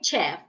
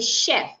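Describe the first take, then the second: First: The word begins with a ch sound. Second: The word begins with an sh sound. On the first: The speaker calls it wrong. "So I would not say chef" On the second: The speaker calls it right. "I should say chef. Shh"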